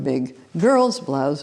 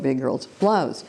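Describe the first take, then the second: First: The stress falls on the word girl's. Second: The stress falls on the word big. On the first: The insult targets the gender. "the gender" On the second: The insult targets the size. "or the size"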